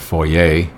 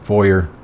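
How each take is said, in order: First: The word is given a French pronunciation. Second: The word is given an English pronunciation.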